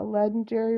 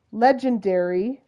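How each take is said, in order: First: "legendary" with the middle run together; slurred word. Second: "Legendary" with each syllable clearly sounded; re-say "Legendary" distinctly, with a clear j; careful pronunciation. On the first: Real, not acted. Utah player slurring words together, "legendary" blurred. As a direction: slur "legendary", blurring the j sound. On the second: Shown as a demonstration. Utah player correcting a slur, "Legendary" said distinctly. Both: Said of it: "We slur our words together".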